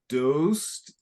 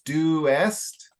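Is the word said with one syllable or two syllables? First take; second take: one syllable; two syllables. First: The vowels merge into a single syllable. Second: The vowels are separated into two syllables. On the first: The speaker calls it wrong. "you're tending to pronounce dost" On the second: The speaker calls it right. "but it's doest"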